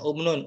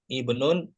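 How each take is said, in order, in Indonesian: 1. Kata ini diawali dengan vokal u. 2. Kata ini diawali dengan vokal i. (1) "Nggak boleh dibaca ubnun" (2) "I. Baca I itu"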